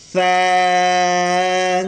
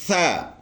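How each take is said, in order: First: "سا" with a soft th and long held vowel; soft, long letter. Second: Said in the usual way. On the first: Shown as a demonstration. Teacher showing children the letter's pronunciation, soft and drawn-out. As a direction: draw out "سا" evenly on one steady note. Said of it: "نرم اور آسانی سے پڑھ سکیں". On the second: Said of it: "اس کی تلفظ ہے".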